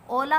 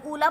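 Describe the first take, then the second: First: ओला with a long 'oh' first; correct reading with ओ. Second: ऊला with a long 'oo' first; misreading with ऊ. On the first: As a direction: say 'oh-laa' for ओला. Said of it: "ओला होता है". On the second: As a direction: say 'oo-laa' for ऊला. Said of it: "ऊला कुछ नहीं होता है". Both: Shown as a demonstration.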